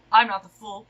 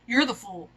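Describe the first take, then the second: First: I'm punched hard and loud; stress on I'm. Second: You're stressed, then a falling fool. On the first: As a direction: hit I'm, rest of the line lighter. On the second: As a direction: point the weight onto You're. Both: Acted.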